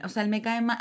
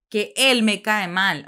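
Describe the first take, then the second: First: Said in the usual way. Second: Él drawn out, slow and loud; slow, loud emphasis on él; stress on él. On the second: Shown as a demonstration. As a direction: lean hard on él, slowly.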